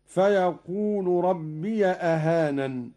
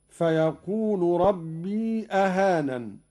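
First: ربي said "rabbiya" before أهانن; fatha on ya. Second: ربي with a long "rabbee" before أهانن; still ya. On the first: Teacher showing Qalun's reading, ربي as "rabbiya". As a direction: put a short a on the ي of ربي. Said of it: "هكذا". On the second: Teacher citing the verse, ربي as long "rabbee". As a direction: stretch the ي of ربي into the hamza. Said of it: "بفتح ياء ربي". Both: Shown as a demonstration.

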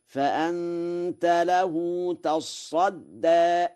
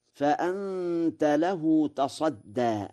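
First: تصدى with a doubled ص, drawn out; slow, higher chant with a doubled ص in تصدى; Warsh reading, recited. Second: Said in the usual way. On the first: Shown as a demonstration. Quran teacher reciting تصدى with a doubled ص. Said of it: "بتشديد الصاد". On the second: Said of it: "قرأ ورش".

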